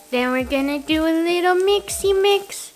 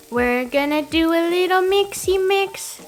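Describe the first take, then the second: First: Louder, higher bouncy singsong; playful singsong. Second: Bouncy louder repeat, stress on mixy; playful singsong. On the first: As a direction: cheerfully sing out the step. Playful cooking phrase. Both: Pretend.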